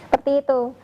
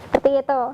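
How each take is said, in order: No difference in how they are said.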